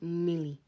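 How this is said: It is said with an l sound.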